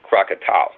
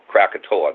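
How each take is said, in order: First: The name ends with an 'ow' sound. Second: The name ends with an 'oh-ah' sound. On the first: This is the Indonesian way. "that's the way people like in Indonesia would say it" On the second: This is the usual English way. "That's the way you probably you and I would say it"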